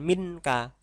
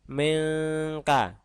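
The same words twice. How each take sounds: First: The n sounds clear and short. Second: The n is blurred, nasal and held. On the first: The speaker calls it wrong. "bukan minka" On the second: The speaker calls it right. "tapi minka"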